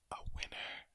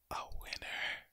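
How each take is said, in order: Both takes have the same delivery.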